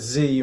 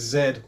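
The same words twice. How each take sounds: First: The letter is said the American way. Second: The letter is said the British way.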